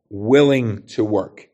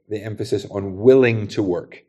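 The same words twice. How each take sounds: First: Willing to work slow, each word leaned on; stress on willing. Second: Said in the usual way. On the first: Shown as a demonstration. Preacher stressing willing to work for the church. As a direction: lean slowly on willing to work.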